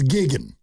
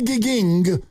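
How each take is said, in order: First: The word ends with an 'n' sound. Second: The word ends with an 'ng' sound. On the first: The speaker calls it right. "There's no fourth G. There's three G's. G I G G I N apostrophe" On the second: The speaker calls it wrong. "don't say gigging"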